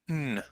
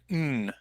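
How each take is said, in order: First: The word is reduced to a single nasal sound. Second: The same.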